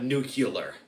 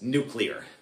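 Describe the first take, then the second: First: An extra vowel is inserted after the C. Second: The C goes straight into the L. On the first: The speaker calls it wrong. "So it's not nuclear" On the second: The speaker calls it right. "it's nuclear. There's only one U and it's not after the C"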